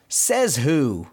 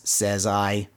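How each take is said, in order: First: Lightly mock-indignant challenge; a touch of cartoon defiance; mild retold yell. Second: Level, deadpan retort; lightly imitated echoing spring; spring's echo. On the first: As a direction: demand an answer, without shouting. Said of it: "Donald kinda yelling at the spring". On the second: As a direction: answer back in monotone. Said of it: "the echo of his voice".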